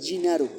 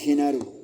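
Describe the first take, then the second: First: The name is said with an Italian pronunciation. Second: The name is said with a Spanish pronunciation. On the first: This is how it is said in Italy. "Mi segundo nombre en Italia es Ginaro" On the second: This is how it is said in Mexico. "si estoy en México me van a decir Genaro"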